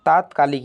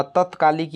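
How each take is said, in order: First: "तात्कालिक" with a long first vowel, taat-kaalik; correct word form. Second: "तत्कालिक" with a short first vowel, tat-kaalik; wrong word form. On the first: Teacher giving students the right option, "तात्कालिक" with long first vowel. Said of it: "ये सही है". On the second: Teacher reading a wrong option, "तत्कालिक" with short first vowel. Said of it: "ये भी गलत है". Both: Shown as a demonstration.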